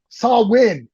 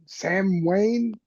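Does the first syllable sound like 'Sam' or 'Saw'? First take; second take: Saw; Sam. First: The first syllable sounds like 'Saw'. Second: The first syllable sounds like 'Sam'. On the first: The speaker calls it right. "is what it was. There it is" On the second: The speaker calls it wrong. "I can't say it"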